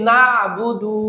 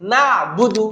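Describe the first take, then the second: First: The budu part is stretched out long. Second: The budu part is said quickly and short. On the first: The speaker calls it wrong. "একটা টান দিই বুদু বলে" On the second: The speaker calls it right. "বুদু তাড়াতাড়ি বলতে হবে"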